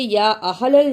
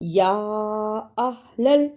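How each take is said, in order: First: The first vowel is kept short. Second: The first vowel is drawn out long. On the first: The speaker calls it wrong. "इसे या अहलल नहीं पढ़ना" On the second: The speaker calls it right. "इसलिए इसको लंबा करना है"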